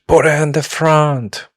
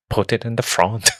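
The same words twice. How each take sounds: First: High, loud attempt at a Scottish accent. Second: Put-on a lighter second try at a Scottish accent on "Put it in the front". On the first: Retelling Ramphis's line in a put-on Scottish accent. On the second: Friend repeats Ramphis's line, milder Scottish accent. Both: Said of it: "he says with his Scottish accent".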